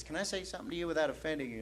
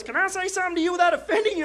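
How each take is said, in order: First: Soft, fast run-through of the quote; quick quiet retelling. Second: Fast, high put-on voice; imitated stranger. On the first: Retold or imitated. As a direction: toss the question off quickly and softly. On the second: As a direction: mimic the stranger in a rapid high pitch.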